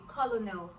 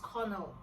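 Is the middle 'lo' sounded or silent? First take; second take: sounded; silent. First: The middle 'lo' letters are sounded. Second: The middle 'lo' letters are silent. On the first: "Why didn't they just say colonel?" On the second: "it is pronounced as colonel"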